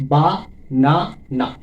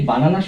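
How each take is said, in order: First: বা, না, না with a long gap after each; teacher counting out বা ... না ... না by syllable; split into syllables. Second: Said in the usual way. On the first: Shown as a demonstration. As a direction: chop বা না না into three lone beats. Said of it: "তিনটি syllable রয়েছে". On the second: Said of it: "এই বানানা শব্দটিতে".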